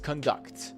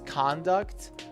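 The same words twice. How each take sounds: First: The stress is on the second syllable. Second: The stress is on the first syllable. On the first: It is used as a verb meaning to perform. "When it is a verb, it is conduct" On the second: It is used as a noun meaning behavior. "When it is a noun, it is conduct"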